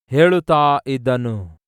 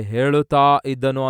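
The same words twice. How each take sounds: First: ಹೇಳುತ್ತಾ stressed, slow and firm with a falling end; emphatic answer. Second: Said in the usual way. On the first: Shown as a demonstration. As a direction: slowly land on ಹೇಳುತ್ತಾ as the answer. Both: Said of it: "ಏನಂತಿದೆ?".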